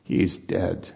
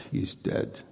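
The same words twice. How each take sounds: First: Said in the usual way. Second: Breathy whisper of he's dead; whispered aside. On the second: Shown as a demonstration. Preacher whispering the enemy's shrug to the congregation. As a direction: let it slip out barely voiced, as an afterthought. Repeats it under his breath.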